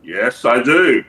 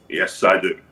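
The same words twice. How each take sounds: First: "Yes, I do" slow, with DO swelling upward; drawn-out admission. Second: "Yes, I do" dropped very low and level; low-pitched admission. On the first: Leader answers robbery question, "Yes, I do" slow and rising. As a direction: stretch "Yes, I do" and lift the end proudly. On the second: Leader confirms the robbery, "Yes, I do" said very low. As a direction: repeat "Yes, I do" deep down in pitch. Repeats confession in lower voice. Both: Acted.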